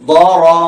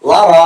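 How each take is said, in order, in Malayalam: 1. ഇത് കനത്ത മുഫഖമ ദ ശബ്ദത്തോടെ തുടങ്ങുന്നു. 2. ഇത് സാധാരണ ലാം ശബ്ദത്തോടെ തുടങ്ങുന്നു. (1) "ضاد ഫത്ഹ മുഫഖമ ض" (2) "ലറ എന്ന് വായിക്കരുത്"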